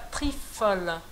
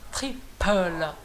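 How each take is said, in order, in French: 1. La consonne du milieu est un f, avec la lèvre et les dents. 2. La consonne du milieu est un p soufflé, avec les deux lèvres. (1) "c'est pas trifala" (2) "il est écrit avec ce P"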